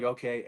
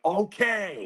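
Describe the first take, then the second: First: Said in the usual way. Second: High-pitched, drawn-out OKAY; exaggerated okay. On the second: Soldier hearing yet more accusations, incredulous. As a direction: stretch OKAY up high in disbelief. Same reply, escalated in retelling.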